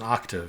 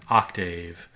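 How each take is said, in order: First: The second syllable has a reduced, unstressed vowel. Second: The second syllable has a long A vowel. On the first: The speaker calls it right. "but it's an octave. It's not stressed" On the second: The speaker calls it wrong. "It looks like this A should be long"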